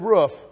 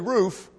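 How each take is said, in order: First: The vowel sounds like the one in foot. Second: The vowel sounds like the one in boot. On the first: This is how the speaker's home region says it. "I may say roof" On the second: This is how the local audience says it. "You may say roof"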